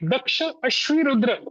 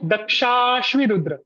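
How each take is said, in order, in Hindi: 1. इसके हिस्से अलग-अलग तोड़कर बोले जाते हैं। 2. यह दीर्घ स्वर के साथ जोड़कर बोला जाता है। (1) "ऐसा पाठ आपको बिल्कुल भी नहीं करना है" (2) "आपको करना है दक्षाश्वी रुद्र"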